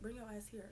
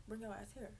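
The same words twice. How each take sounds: First: Low urgent hiss-free call under the breath; softly summoning a friend; hushed call. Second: Low, quiet summons; quietly repeating the call; hushed call. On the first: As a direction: call her over quietly so staff won't hear. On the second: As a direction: call her over without being heard. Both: Retold or imitated. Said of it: "I'm trying to talk low".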